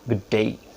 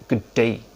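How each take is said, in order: Both takes have the same delivery.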